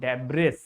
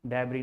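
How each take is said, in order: First: The final s sound is pronounced. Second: The final s sound is silent. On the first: The speaker calls it wrong. "is an incorrect pronunciation" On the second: The speaker calls it right. "This is debris, S is silent here"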